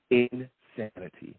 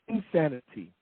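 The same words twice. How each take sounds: First: Disgusted. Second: Said in the usual way. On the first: Real, not acted.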